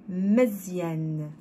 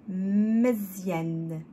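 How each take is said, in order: No difference in how they are said.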